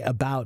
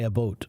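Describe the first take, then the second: First: It is said with an American pronunciation. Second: It is said with a Canadian pronunciation. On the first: "I say about" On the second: "he'll say about"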